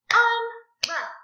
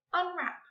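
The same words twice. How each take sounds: First: "Unwrap" high and loud in two separate beats; clapped syllables. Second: Said in the usual way. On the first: Shown as a demonstration. Teacher clapping out a word for pupils, loudly split. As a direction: punch out "Unwrap" as un, pause, wrap. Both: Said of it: "Let's clap it out".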